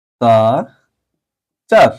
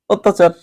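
First: অত্যাচার very slowly as ওত, তা, চার; long pauses between syllables of অত্যাচার; syllable-by-syllable pronunciation. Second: অত্যাচার in one go as ওত্তাচার; joined-up pronunciation. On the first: Teacher quizzing students, অত্যাচার very slowly by syllable. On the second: Teacher confirming the answer, অত্যাচার as one whole word. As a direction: run অত্যাচার together, higher, closed o first. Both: Shown as a demonstration. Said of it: "এটা কি হবে বলো দেখি".

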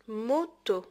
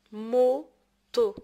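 First: Said in the usual way. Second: "Moto" in two loud, separated beats; syllable by syllable. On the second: Shown as a demonstration. Teacher giving an example of O, syllable by syllable. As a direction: sound out "Moto" firmly, pausing between syllables. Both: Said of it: "تقطع الكلمات كيتسمى سيلاب".

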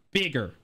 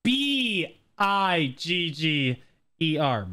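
First: Said in the usual way. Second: "B I G G E R" spelled out letter by letter, slowly; over enunciating. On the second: Shown as a demonstration. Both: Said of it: "I'm just gonna enunciate very clearly here".

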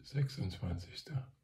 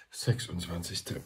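First: SECHSUNDZWANZIGSTER higher, rising like a question; unsure, questioning. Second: Said in the usual way. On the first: Real, not acted. Speaker checking the date mid-greeting, questioning. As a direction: say "Sechsundzwanzigster" tentatively, pitch lifted at the end.

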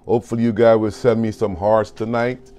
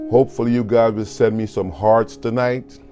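The two takes are said the same way.

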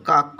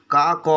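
First: "কাক" as one syllable, kaak; teacher's model "কাক", closed kaak; correct closed pronunciation. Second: "কা ক" in two open syllables, kaa, ko; wrong split pronunciation. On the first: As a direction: end "কাক" on a hard k with no vowel after it. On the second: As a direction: pull "কা ক" apart and voice the final vowel as ko. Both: Shown as a demonstration. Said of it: "এরম তো বলছি না আমরা".

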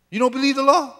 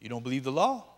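First: Pitched high in disbelief; incredulous challenge. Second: Said in the usual way. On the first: Shown as a demonstration. Preacher challenging his congregation, high and incredulous.

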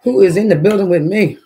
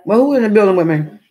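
First: Loud hyped call to the crowd. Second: Loud call to the room. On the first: Streamer calls out again to viewers, loud. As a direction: shout it out to the chat. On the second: Streamer calls out to viewers, loud and hyped. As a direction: call out to everyone listening. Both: Real, not acted.

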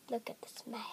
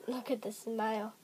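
First: Soft unvoiced whisper. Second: Said in the usual way. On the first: Real, not acted. Gamer whispers while hiding from animals. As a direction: whisper it so the animals don't hear.

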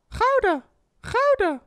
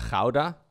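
First: Very high falsetto exclamation; catchphrase squeal. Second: GOUDA with a questioning rise, in usual pitch; tentative suggestion. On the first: Streamer testing his own VTuber sound, high falsetto. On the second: Streamer floating a new catchphrase, tentative rise. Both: Shown as a demonstration. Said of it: "I need to have my own sound".

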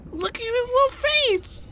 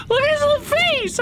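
First: Very high gushing coo; overwhelmed by cuteness. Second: Even higher, louder gushing; overwhelmed by cuteness. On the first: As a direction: gush over the tiny face. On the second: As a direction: squeal over the little face. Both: Real, not acted. Gushing over creature.

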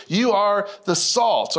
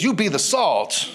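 First: Said in the usual way. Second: "You be the salt" slow, each word leaned on; playful slang. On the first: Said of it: "since I have bad English". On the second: Shown as a demonstration. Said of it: "since I have bad English, I'll say it like this".

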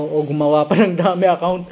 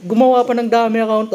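First: Said in the usual way. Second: Much higher and louder, laughing disbelief; incredulous exclamation. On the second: Real, not acted. Vlogger reacting to the fake account comment, incredulous and amused. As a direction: repeat it squealing in amused shock.

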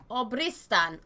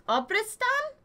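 First: Said in the usual way. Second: Obristan rising high at the end; questioning tone. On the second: Real, not acted. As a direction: query Obristan with a high upturn. Questioning the country name.

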